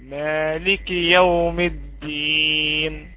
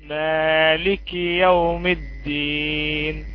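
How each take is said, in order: Both takes have the same delivery.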